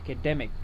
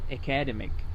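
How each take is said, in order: First: The stress is on the 'de' syllable. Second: The stress is not on the 'de' syllable. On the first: The speaker calls it right. "The stress is on the D E" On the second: The speaker calls it wrong. "It's not academic"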